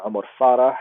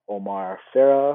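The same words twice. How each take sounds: First: The name is said with its native sounds. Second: The name is said with everyday English sounds. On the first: The speaker calls it right. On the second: The speaker calls it wrong.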